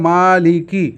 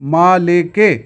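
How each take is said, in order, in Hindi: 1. शब्द 'ee' स्वर पर खत्म होता है। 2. शब्द 'ay' स्वर पर खत्म होता है। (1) "दुरुस्त है" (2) "मजहूल पढ़ देते हैं ... ये गलत है"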